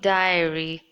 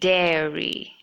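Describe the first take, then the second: First: The first syllable sounds like 'die'. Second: The first syllable sounds like 'dare'. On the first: The speaker calls it wrong. "not diary" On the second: The speaker calls it right. "but dairy"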